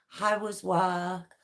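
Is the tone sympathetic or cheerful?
sympathetic. It is said in a sympathetic, downbeat tone.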